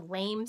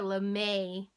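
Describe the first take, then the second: First: It is one syllable, rhyming with game. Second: It is two syllables with a long final E. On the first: The speaker calls it wrong. "you don't say this is a lame sweater" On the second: The speaker calls it right. "makes the E a little bit longer"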